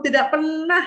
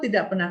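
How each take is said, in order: First: "pernah" drawn out and pitched high; stress on PERNAH. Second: Said in the usual way. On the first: Shown as a demonstration. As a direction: stretch the word "pernah" in reproach. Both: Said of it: "Atau tidak pernah".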